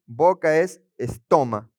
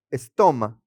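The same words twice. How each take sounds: First: Said in the usual way. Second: "estoma" stressed on the O, es-TO-ma. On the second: Shown as a demonstration. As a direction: lean on the middle syllable of "estoma". (acento en la o de "estoma") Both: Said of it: "con acento en la O".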